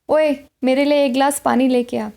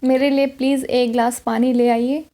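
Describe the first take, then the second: First: It is said in a rude, bossy tone. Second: It is said in a polite, gentle tone.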